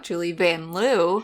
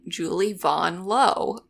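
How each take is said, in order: First: The surname is said the usual American way. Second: The surname is said the French-influenced way. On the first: This is how announcers in the league say it. "one of our most beloved players" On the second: This is how the player herself says it. "the announcers kept saying Julie Von Low"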